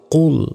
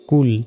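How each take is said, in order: First: কুল with a thick, back-of-throat q; thick-voiced qaf in কুল; heavy qaf. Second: কুল with a thin, light k and plain u; thin-sounding কুল; mispronounced কুল. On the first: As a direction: say কুল full and heavy, as Arabic qul. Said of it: "কুল মোটা করে". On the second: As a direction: say কুল the common wrong way, with a light k. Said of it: "অনেকে ভুল উচ্চারণ করি". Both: Shown as a demonstration.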